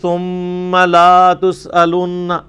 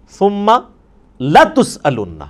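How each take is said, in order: First: The 'la' syllable is drawn out long. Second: The 'la' syllable is short. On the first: You will not be asked. The speaker calls it wrong. "لا کو ذرا سا لمبا کر دیا" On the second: You will surely be asked. The speaker calls it right. "لام زبر لا"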